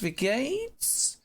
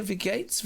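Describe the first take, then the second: First: "Wie geht's" much higher, drawn out rising; chirpy repeat of "Wie geht's"; bright rising "geht's"; sing-song German greeting. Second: Said in the usual way. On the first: Shown as a demonstration. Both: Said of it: "German greeting".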